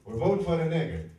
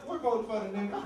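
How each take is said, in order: First: Husband's loud answer. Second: Higher, lady's repeat; old lady relaying husband's answer. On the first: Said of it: "He looked up and he goes". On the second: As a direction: parrot it back in her voice. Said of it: "And she goes". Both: Retold or imitated.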